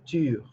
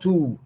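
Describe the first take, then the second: First: The vowel is a rounded French-like 'u'. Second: The vowel is a plain 'oo' sound. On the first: The speaker calls it right. "because we have that sound in, in French, which is U. So you say tu" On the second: The speaker calls it wrong. "So not two"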